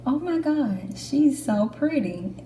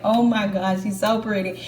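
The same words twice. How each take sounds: First: High, gushing first reaction; starstruck. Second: Said in the usual way. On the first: Retold or imitated. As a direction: gush over the instructor. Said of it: "the first thought in my head was". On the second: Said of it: "I was like".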